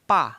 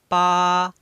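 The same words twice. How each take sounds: First: The pitch falls sharply from high to low. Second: The pitch stays high and level. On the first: "dibaca menekan dari atas ke bawah" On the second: "Nomor satu kita bisa baca dibaca datar tinggi"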